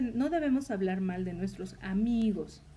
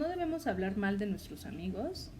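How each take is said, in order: First: The word amigos carries the emphasis. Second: The word hablar carries the emphasis. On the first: Speaking ill of female friends is allowed. "se puede malinterpretar en la última palabra" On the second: Harming them in deeds is allowed. "hacemos énfasis en la palabra hablar"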